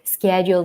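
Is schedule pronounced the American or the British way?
American. The word is pronounced the American way. "what if on I E L T S I use American spelling"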